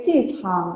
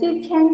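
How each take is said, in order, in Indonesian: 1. Suku kata kedua memiliki vokal 'a'. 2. Suku kata kedua memiliki vokal 'e'. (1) "tapi Cichang" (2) "Bukan Cicheng"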